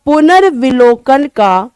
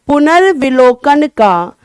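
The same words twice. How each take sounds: The two takes are said the same way.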